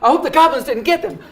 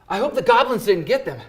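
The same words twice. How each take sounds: First: It is said in a high, squeaky cartoon voice. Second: It is said in a calm, natural, energetic voice.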